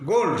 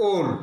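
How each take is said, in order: First: গোল্ড said straight, o not narrowed; straight pronunciation. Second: ওল্ড with the o narrow and drawn long; narrowed, lengthened vowel. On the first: Teacher contrasts gold with old, straight গোল্ড. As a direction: keep the vowel of গোল্ড plain and unstretched. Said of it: "সোজাসুজি". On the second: Teacher contrasts old with gold, long narrow ওল্ড. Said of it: "একটু narrow হয়ে আসবে". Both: Shown as a demonstration.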